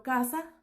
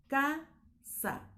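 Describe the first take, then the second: First: Said in the usual way. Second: "casa" in two syllables, a clear pause between ca and sa; split into syllables. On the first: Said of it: "va junto". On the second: Shown as a demonstration. Teacher shows syllable division, "casa" broken into ca and sa. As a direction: say "casa" higher, as ca... sa. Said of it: "tiene que ser casa".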